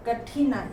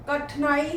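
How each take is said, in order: First: Said in the usual way. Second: कठिनाई with the middle "i" dropped; mispronounced. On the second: Shown as a demonstration. Teacher reads the error list, mispronounced कठिनाई as "kathnaai". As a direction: say कठिनाई as "kath-naai". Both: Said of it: "मात्रा संबंधी अशुद्धियाँ दी गई".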